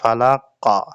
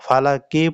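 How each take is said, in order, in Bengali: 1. শব্দটি বদ্ধ ব্যঞ্জনে শেষ হয়েছে। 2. শব্দটি ছোট i স্বরে শেষ হয়েছে। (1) "ওয়াকফের সময় পড়তে হবে ফালাক্কা।" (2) "ফালাকি পড়া যাবে না।"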